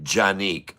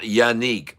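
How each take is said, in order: First: The name begins with a J sound. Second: The name begins with a Y sound. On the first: The speaker calls it right. "that's a strong J" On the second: The speaker calls it wrong. "not the silent J"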